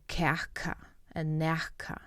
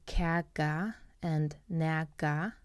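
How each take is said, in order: First: The middle consonant is an aspirated k sound. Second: The middle consonant is a soft g sound. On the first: This is how some other people in the Faroe Islands say it. "people in the Faroe Islands who will have like an aspirated sound for the k" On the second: This is how the speaker personally says it. "I will personally say kaga and naga with more like a g sound"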